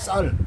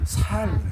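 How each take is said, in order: First: The first consonant is a tense s. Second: The first consonant is a plain s. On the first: The speaker calls it right. "쌀이라는 발음을 못해" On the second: The speaker calls it wrong. "그런데 뭐라고 하냐? 살"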